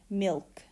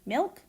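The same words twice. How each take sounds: First: The L is a clear consonant. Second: The L sounds like a vowel. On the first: "the unvocalized L" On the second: "just normally like I would"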